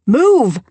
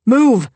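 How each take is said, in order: First: Higher, louder sharp order once more; repeated command. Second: Higher, louder sharp order; curt command. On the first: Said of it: "I said again". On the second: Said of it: "I didn't bother altering my tone". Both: Acted. Doctor forcing through the crowd, loud order. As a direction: bark it at the crowd.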